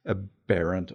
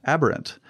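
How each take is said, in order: First: "aberrant" said uh-PERR-unt, stress on the middle syllable; a tentative "aberrant" starting with a soft uh and leaning on the second syllable; unsure pronunciation. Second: "Aberrant" said AB-er-unt, stress on the first syllable; corrected pronunciation. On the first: Real, not acted. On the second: Shown as a demonstration. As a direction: repeat "Aberrant" with a clear AB up front and a falling end. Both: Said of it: "or how do you pronounce it?".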